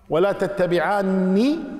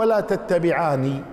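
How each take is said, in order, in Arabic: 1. صوت النون مشدد وممدود. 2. صوت النون قصير ومفرد. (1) "بتشديد النون" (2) "بعدم تشديدها"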